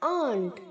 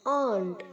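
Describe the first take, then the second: No difference in how they are said.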